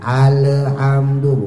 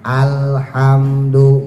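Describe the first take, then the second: First: The L sound is bounced with an echo. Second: The L sound is held smoothly without bouncing. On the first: The speaker calls it wrong. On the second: The speaker calls it right.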